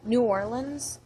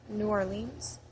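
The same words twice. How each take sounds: First: "New Orleans" said "new OR-linz"; Orleans as OR-lins. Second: "New Orleans" said "new or-LEENZ"; Orleans as or-leens. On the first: Reading a word list, "New Orleans" as "new OR-linz". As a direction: say "New Orleans" with a short, weak last syllable. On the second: Giving the other option, "New Orleans" as "new or-LEENZ". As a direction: say "New Orleans" ending in a long ee, softer. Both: Shown as a demonstration. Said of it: "either one".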